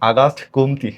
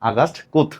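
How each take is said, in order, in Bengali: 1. পদবিটি শেষ হয়েছে একটি যোগ করা স্বরধ্বনি দিয়ে। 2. পদবিটি শেষ হয়েছে একটি ব্যঞ্জনধ্বনিতে। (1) "না আগাস্ট কোমতি না" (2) "এটার আসল উচ্চারণ হলো আগাস্ট কোঁত"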